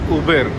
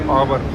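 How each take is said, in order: First: The name is said like 'Uber'. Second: The name is said like 'Auburn'. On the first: The speaker calls it right. "in the train she was saying it as Uber" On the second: The speaker calls it wrong. "I was pronouncing it as Auburn"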